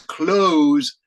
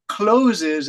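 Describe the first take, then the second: First: The word is said with one syllable. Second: The word is said with two syllables. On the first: The speaker calls it right. "The pronunciation is close" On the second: The speaker calls it wrong. "some students say closes, and that's not the correct pronunciation"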